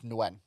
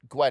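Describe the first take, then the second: First: The name starts with an NG sound. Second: The name starts with a plain G sound. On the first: The speaker calls it right. "it's Nguyen" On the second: The speaker calls it wrong. "it's not Gwen"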